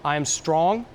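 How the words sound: The pitch rises at the end like a question. The speaker sounds unsure of the statement. The speaker calls it wrong. "back to the up talk"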